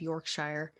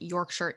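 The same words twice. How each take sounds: First: The name is said with an American pronunciation. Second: The name is said with a British pronunciation. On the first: The speaker calls it wrong. "or excuse me" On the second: The speaker calls it right. "now I'm doing it correctly"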